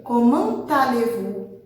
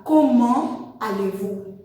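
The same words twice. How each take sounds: First: Comment linked to allez with a sounded T, slowly; with liaison. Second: Comment said slowly with no T before allez; without liaison. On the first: Teacher models the right way, slow with liaison. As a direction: join the T of Comment onto allez. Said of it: "a gente vai dizer ... tudo junto". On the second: Teacher shows the wrong way, slow, no liaison. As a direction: drop the T, keep the words apart. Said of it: "A gente não vai falar". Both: Shown as a demonstration.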